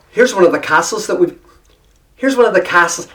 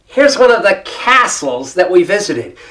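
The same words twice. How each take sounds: First: Lightly Irish-tinged castles; casual, slightly Irish accent; slipping into brogue. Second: Deliberate American vowel on castles; emphatic American-accented restatement; American accent correction. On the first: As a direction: try the line with a hint of brogue. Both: Retold or imitated. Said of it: "slip right into the brogue".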